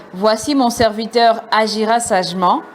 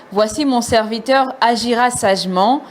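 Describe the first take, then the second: Both takes have the same delivery.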